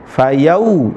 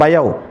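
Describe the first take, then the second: First: The vowel is pronounced as a rounded 'u'. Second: The vowel is pronounced as an open 'o'. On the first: The speaker calls it right. "yang benar" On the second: The speaker calls it wrong.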